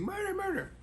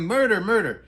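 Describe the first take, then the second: First: Much higher put-on voice, each MURDER falling off; squeaky hammed-up cry of murder, but softer; the neighbour shrieking as the trooper arrives, played as a high squeak; mock screaming woman. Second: Mock yelling. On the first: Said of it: "the woman screaming". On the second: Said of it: "she's yelling".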